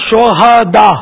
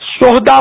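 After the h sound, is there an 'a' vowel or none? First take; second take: a; none. First: The h is followed by a short 'a' vowel. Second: The h has no vowel after it. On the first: It is the plural of martyr. The speaker calls it right. "یہ صحیح تلفظ ہے، ہاں پر زبر آئے گا" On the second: It means hooligans or thugs. The speaker calls it wrong. "ہاں کو ساکن پڑھنا جو ہے نا، یہ اس کے معنی بدل جاتے ہیں"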